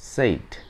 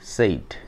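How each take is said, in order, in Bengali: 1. এখানে স্বরধ্বনিটি লম্বা 'ay' ধ্বনি। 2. এখানে স্বরধ্বনিটি লম্বা 'ay' ধ্বনি।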